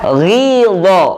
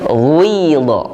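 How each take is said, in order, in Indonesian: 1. Vokal pertama adalah bunyi i biasa. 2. Vokal pertama bercampur dengan bunyi u. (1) "contoh yang ketiga ghidho" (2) "dengan huruf ini yang dibaca menjadi ghidho"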